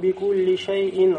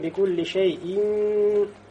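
First: The sound at the tanween is kept short. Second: The sound at the tanween is held long. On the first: The speaker calls it right. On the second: The speaker calls it wrong.

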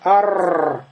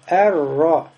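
First: The r sound is held far too long. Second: The r sound is doubled only briefly. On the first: The speaker calls it wrong. "Нельзя сказать ар-р. Тогда уже здесь будет не две ро. 4, 5, 6 ро" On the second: The speaker calls it right. "только две ро"

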